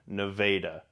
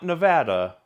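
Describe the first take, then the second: First: It uses the local Iowan pronunciation of the name. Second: It uses the widely known pronunciation of the name. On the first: The speaker calls it right. "You have to say it like an Iowan" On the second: The speaker calls it wrong. "Not Nevada"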